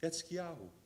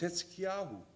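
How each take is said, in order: No difference in how they are said.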